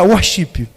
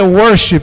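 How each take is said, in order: First: It is pronounced with Brazilian Portuguese sounds. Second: It is pronounced the English way. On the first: The speaker calls it wrong. "Nem pronunciar direito eles sabem" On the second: The speaker calls it right. "a palavra correta é worship"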